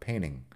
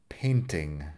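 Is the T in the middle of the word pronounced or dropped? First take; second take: dropped; pronounced. First: The T in the middle is dropped. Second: The T in the middle is clearly pronounced.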